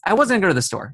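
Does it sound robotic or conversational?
conversational. It is said casually, like natural talk.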